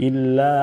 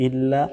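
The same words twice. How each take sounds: Both takes have the same delivery.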